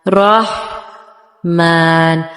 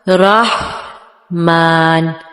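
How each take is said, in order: The two takes are said the same way.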